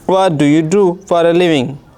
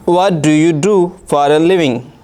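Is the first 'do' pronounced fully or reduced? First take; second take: fully; fully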